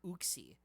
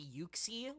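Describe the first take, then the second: First: The name begins with an "oo" sound. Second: The name begins with a "you" sound. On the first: "like how you'd pronounce the word Uber" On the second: "like Y U X I E"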